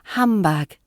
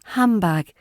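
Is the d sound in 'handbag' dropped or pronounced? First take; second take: dropped; dropped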